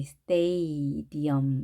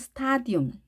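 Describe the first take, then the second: First: The first vowel sounds like 'ay'. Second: The first vowel sounds like 'ah'. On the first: The speaker calls it right. "A입니다" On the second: The speaker calls it wrong. "아가 아니고"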